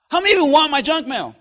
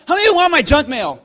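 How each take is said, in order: First: Said in the usual way. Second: Louder repeat. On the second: Acted. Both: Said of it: "Let me ask again".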